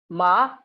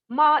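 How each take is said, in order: First: The pitch rises toward the end. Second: The pitch stays high and level. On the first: It means mad. "with rising pitch" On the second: It means dog. "with high level pitch"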